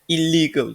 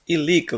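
First: The middle l sound is held long, doubled. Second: The middle l sound is short, single. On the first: The speaker calls it wrong. "illegal değil" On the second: The speaker calls it right. "bunları tek okuyacağız"

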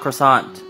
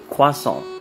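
First: It is pronounced the English way. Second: It is pronounced the French way. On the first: The speaker calls it wrong. "It's not croissant" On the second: The speaker calls it right. "Pronounce it properly. It is croissant"

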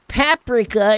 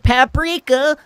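First: The word is said with a British pronunciation. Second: The word is said with a non-British pronunciation. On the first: The speaker calls it wrong. "British, British. Oh, you call it paprika" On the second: The speaker calls it right. "instead of paprika"

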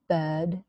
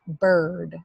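First: The vowel is said without any R sound. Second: The vowel is said with an R sound. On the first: "British English, where there is no post-vocalic R" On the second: "central vowels plus the R"

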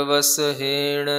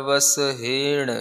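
The two takes are said the same way.

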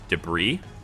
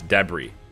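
First: It is said with the American pronunciation. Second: It is said with the international pronunciation. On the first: "the American pronunciation is debris" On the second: "pretty much like all international, it's debris"

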